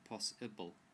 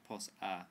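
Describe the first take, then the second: First: The second syllable has an 'i' vowel. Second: The second syllable has an 'a' vowel. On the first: The speaker calls it right. "it's an I sound" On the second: The speaker calls it wrong. "it's not an a sound"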